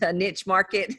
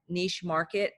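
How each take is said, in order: First: Niche is said the Southern Texas way. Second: Niche is said the general, non-Southern way.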